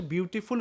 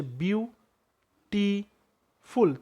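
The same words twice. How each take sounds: First: Said in the usual way. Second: "beautiful" in three separate beats, বিউ, টি, ফুল, with long pauses; syllable by syllable. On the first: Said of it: "beautiful উচ্চারণ করি". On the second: Shown as a demonstration. Teacher showing three syllables in "beautiful", each said apart, slowly. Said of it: "তিনটা syllable".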